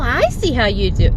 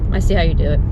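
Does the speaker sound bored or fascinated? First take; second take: fascinated; bored. First: The voice is lively and amazed. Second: The voice is flat and uninterested. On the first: The trick still seems wonderful. "Not, ooh, oh" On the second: The trick has lost its magic. "There's no no interest"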